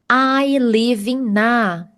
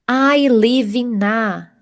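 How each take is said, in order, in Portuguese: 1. O n de 'in' se junta ao 'a'. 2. O n de 'in' se junta ao 'a'.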